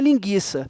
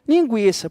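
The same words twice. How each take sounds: First: The u after the g is silent. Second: The u after the g is pronounced. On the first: The speaker calls it wrong. "naturalmente não falaria linguiça" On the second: The speaker calls it right. "Falaria o quê?"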